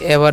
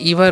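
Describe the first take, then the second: First: The first vowel is a short 'eh' sound. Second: The first vowel is a long 'ee' sound. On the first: The speaker calls it right. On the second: The speaker calls it wrong.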